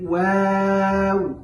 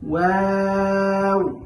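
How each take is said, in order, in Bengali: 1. অক্ষরটি পাতলা ও হালকা করে উচ্চারিত হয়। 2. অক্ষরটি পাতলা ও হালকা করে উচ্চারিত হয়।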